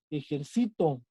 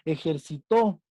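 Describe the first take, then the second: First: Ejercito stressed on -ci-; e-jer-CI-to, ejercito with an unstressed ending; stress on penultimate syllable. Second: Ejercitó with the final -tó stressed; e-jer-ci-TÓ, weight on the last syllable of ejercitó. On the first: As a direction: put the weight on the second-to-last syllable of ejercito. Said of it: "Esa es una palabra grave". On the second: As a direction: land the stress on the end of ejercitó. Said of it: "Son palabras agudas". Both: Shown as a demonstration.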